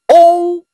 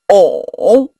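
First: The pitch stays high and level. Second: The pitch dips low then rises. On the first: "第一声" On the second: "第三声"

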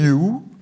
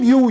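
First: It rises like a doubtful question. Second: It is said as an emphatic exclamation.

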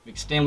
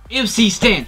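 First: MC is spoken as one syllable, 'Mc'. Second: MC is spoken as two separate letters. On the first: The speaker calls it wrong. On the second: The speaker calls it right.

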